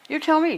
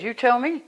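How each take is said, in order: First: Pitched higher, insisting on "tell"; pressed retort. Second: Said in the usual way. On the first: Retold or imitated. Retelling her reply to the friend, higher and insistent. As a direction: throw "tell" back hard, higher. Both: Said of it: "I said".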